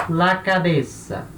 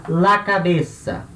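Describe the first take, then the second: The two takes are said the same way.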